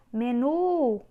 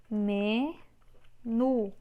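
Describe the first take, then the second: First: "Menu" with a loud, long NU; stretched stressed syllable. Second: "Menu" split into ME, pause, NU; syllable by syllable. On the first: Teacher showing the last syllable is tonic, loud stretched stress. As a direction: push and draw out NU in "Menu". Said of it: "também é a última". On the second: Teacher separating a word for students, syllable by syllable. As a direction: hold ME, pause, then say NU. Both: Shown as a demonstration.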